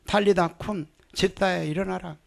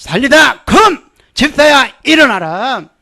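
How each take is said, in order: First: Quiet, steady command; quiet proclamation. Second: Loud, high commanding call; preacher shouting the command; loud proclamation. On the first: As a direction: proclaim it calmly under the breath. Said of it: "저는 그렇게 선포합니다". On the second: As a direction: declare healing boldly. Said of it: "병들어서 누워있으면". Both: Shown as a demonstration.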